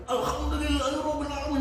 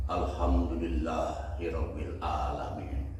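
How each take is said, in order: First: Much higher, thrilled "Alhamdulillahirabbil alamin" with a put-on voice; gleeful cry. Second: Slow devout phrase. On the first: Traveler delighted as the camel speeds up, high gleeful voice. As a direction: blurt it out overjoyed. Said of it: "makin senang dia bilang". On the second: Retold or imitated. Traveler first reciting the phrase to the camel, slow calm voice. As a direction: lower and slow, mild reverent tone on "Alhamdulillahirabbil alamin". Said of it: "langsung dia kata".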